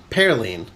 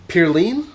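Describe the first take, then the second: First: Pearline. with Pearl vowel, falling firmly; corrected pronunciation. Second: Pearline? with a questioning rise and Peer-line vowel; unsure pronunciation. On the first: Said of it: "P E A R line". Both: Shown as a demonstration.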